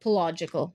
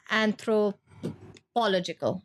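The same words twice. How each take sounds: First: "pological" with the beat on POL; emphasis on POL. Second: "anthropological" broken after anthropo, then -logical; shifted emphasis. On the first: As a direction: stress the first syllable of "pological", po-LOJ run together. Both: Shown as a demonstration. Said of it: "the way the emphasis is on".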